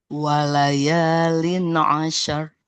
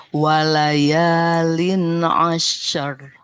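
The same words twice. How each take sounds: Both takes have the same delivery.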